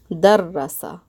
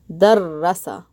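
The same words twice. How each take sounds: The two takes are said the same way.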